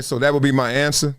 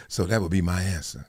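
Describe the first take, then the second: First: Said in the usual way. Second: Low, soft bland answer; deadpan executive sign-off; quoting Howie. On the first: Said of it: "somebody ends by saying". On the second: Retold or imitated. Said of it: "He said".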